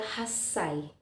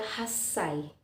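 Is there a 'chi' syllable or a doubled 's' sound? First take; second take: doubled s; doubled s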